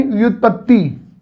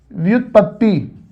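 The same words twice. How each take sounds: First: Said in the usual way. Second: व्युत्पत्ति said slowly and softly, each syllable clear; careful pronunciation. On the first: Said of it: "जैसे लिखा है". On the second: Shown as a demonstration. Teacher models the word for students, slow and careful. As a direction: spell out व्युत्पत्ति gently, syllable by syllable. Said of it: "जैसे लिखा है व्युत्पत्ति".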